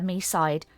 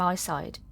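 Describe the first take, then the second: First: The first syllable sounds like 'me'. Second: The first syllable sounds like 'my'. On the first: The speaker calls it wrong. "I said it wrong" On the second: The speaker calls it right. "everybody's saying my side"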